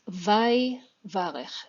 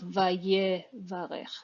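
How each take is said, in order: First: The shva is silent, giving three syllables. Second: The shva is voiced, giving four syllables. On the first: The speaker calls it right. "It's vai varech" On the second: The speaker calls it wrong. "It's not vaye varech"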